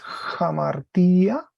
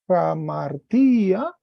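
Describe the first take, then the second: First: The word starts with a light h sound. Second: The word starts directly with a vowel. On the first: The speaker calls it right. "se leería como una J" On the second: The speaker calls it wrong. "estaba leyéndolo mal porque había puesto mal el acento"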